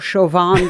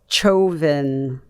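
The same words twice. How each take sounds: First: The name begins with a soft 'sh' sound. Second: The name begins with a hard 'ch' sound. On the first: The speaker calls it wrong. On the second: The speaker calls it right.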